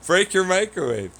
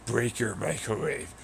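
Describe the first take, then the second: First: Mocking voice. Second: Said in the usual way. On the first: Mocking the chat's taunt.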